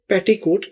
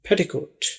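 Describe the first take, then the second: First: The word is said with a South Asian accent. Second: The word is said with an English accent. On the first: "उम्मन हम इसके pronunciation में, इसके तलफ़ुज़ में हमसे पेटीकोट कहेंगे" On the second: "जब अंग्रेज इसको बोलेंगे तो वो इसको पेटिकोट"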